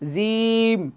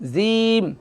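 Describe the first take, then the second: Both takes have the same delivery.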